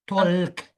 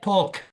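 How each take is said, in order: First: The word is said without an L sound. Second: The word is said with an L sound. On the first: The speaker calls it right. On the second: The speaker calls it wrong.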